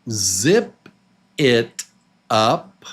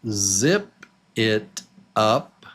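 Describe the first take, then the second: Both takes have the same delivery.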